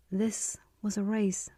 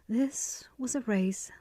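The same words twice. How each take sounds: The two takes are said the same way.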